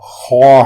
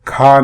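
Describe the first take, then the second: First: It is said with the Arabic kha sound. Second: It is said with the Hindi-Urdu kha sound. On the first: The speaker calls it right. "अरबी में सिर्फ खा है" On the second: The speaker calls it wrong. "खा नहीं है, जो उर्दू और हिंदी में पाया जाता है"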